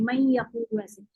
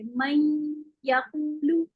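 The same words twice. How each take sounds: First: मन यकूलू run together with no held ghunna; मन यकूलू said the quick everyday way, no nasal hold; quick merged reading. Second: मन यकूलू with the nasal stretched two beats before यकूलू; very slow, hold the nasal hum in मन यकूलू; मन यकूलू recited slowly with a long nasal ghunna; long held ghunna. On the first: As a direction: slur मन यकूलू into one quick sweep. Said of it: "जैसे हम वैसे ही बोलते रहते हैं". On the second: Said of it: "दो हरकत का गुन्ना लंबा करके पढ़ेंगे". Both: Shown as a demonstration.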